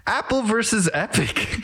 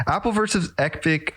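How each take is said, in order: First: High, stiff announcer robot. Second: Laughing through the words. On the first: Pretend. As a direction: state the topic like a robot. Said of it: "introducing a new topic in a robot voice". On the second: Real, not acted. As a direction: repeat it, breaking into a laugh. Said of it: "I don't know what just possessed me".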